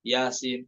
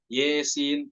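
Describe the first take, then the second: First: The first vowel is an open 'a'. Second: The first vowel is fronted toward 'e'. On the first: This follows a different transmitted reading tradition. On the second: This follows one transmitted reading tradition.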